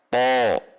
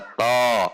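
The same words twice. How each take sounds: First: The syllable sounds thick and resonant. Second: The syllable sounds thin and light. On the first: The speaker calls it right. "semakin tebal atau semakin menggema" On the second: The speaker calls it wrong. "tidak dibaca to"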